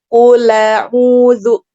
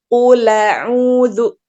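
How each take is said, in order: First: The l runs straight into the vowel. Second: The l runs straight into the vowel.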